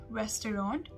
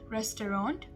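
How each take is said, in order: First: It is said fully, as it is spelled. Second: The same.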